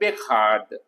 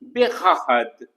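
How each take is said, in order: First: The word is said in a shortened form. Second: The word is said in its full form. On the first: This is the everyday spoken form. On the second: This is the formal form.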